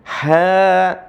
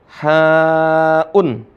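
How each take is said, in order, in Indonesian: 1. Vokal berakhir tanpa hamzah atau akhiran. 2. Hamzah dan -un mengikuti vokal. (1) "cara bacanya hilang hamzahnya. Ya, ha jadinya" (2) "Dibaca haun"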